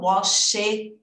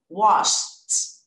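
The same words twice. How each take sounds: First: An extra vowel sound is added before the ending. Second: The word ends in a plain T sound. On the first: The speaker calls it wrong. "E não washed. Não tem esse she" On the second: The speaker calls it right. "No passado, eu vou acrescentar o T"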